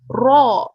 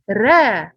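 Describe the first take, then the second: First: The r is heavy with a full, deep sound. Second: The r is light with an open, thin sound. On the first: The speaker calls it right. "the back part of our tongue must rises up like this" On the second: The speaker calls it wrong. "it will not be right if you said ra"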